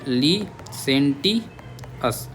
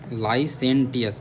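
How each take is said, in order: First: The first syllable sounds like 'lee'. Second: The first syllable sounds like 'lie'. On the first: The speaker calls it right. "ली बोल दो" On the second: The speaker calls it wrong. "लाई मत बोलो"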